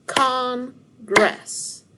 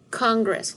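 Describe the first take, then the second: First: "Congress" in two loud, higher beats with a gap; split into syllables. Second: Said in the usual way. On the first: Shown as a demonstration. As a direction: punch "Congress" out as Con, pause, gress. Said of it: "divide the word Congress into syllables". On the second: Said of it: "What word?".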